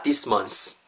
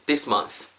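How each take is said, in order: First: Month ending in a hissed s; wrong s ending. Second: Month ending in a soft th; proper th. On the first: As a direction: say month as if it were mons. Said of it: "Not this month. 스가 아니고". (month 끝을 s 소리로) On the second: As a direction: finish month with tongue out, blowing air. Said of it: "Not this month". (month 끝을 th 바람 소리로) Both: Shown as a demonstration.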